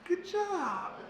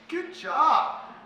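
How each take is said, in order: First: The pitch rises slightly and the voice softens. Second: It sounds confident and relaxed. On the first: The talk did not go so well. "the pitch rises slightly and it softens" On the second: The talk went really well. "Confident, relaxed"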